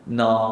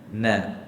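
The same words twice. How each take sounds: First: The vowel is full and thick, like a regional accent. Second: The vowel is light and thin. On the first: The speaker calls it wrong. "macam orang Kedah baca" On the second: The speaker calls it right.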